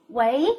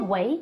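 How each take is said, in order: First: 喂 rising like answering the phone; rising wei. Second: 喂 said again, rising; rising wei. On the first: Teacher modeling a phone greeting with a rising tone. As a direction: lift 喂 upward as a phone greeting. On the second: Teacher repeating the phone greeting to show the rising tone. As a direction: repeat 喂 with the same upward lift. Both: Shown as a demonstration. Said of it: "也是阳平的".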